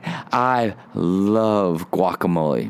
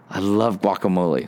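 First: It is said in an odd, intense, creepy way. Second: It is said in a light, casual, everyday way. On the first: The speaker calls it wrong. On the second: The speaker calls it right.

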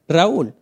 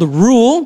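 First: The name has two syllables, said the Spanish way. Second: The name is one syllable, sounding like rule. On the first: The speaker calls it right. "right now I'm saying it with the correct pronunciation in my culture. It's Spanish" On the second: The speaker calls it wrong. "I've been called Rule"

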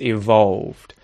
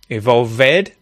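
First: The ending is a plain d sound. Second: The ending is said as an extra syllable. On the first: The speaker calls it right. "No, it's evolved" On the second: The speaker calls it wrong. "e vowel sound, to which adds a syllable"

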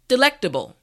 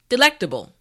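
The two takes are said the same way.

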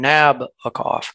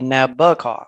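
First: The stress is not on the middle syllable. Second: The stress is on the middle syllable. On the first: The speaker calls it wrong. "I have probably been mispronouncing it, tending to put the stress on Nabokov" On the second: The speaker calls it right. "the emphasis is on the middle syllable"

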